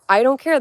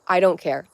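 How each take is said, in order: First: Higher and louder I don't care; sticking to it, loudly; defiant shout. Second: Said in the usual way. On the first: Real, not acted. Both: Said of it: "you can call me crazy".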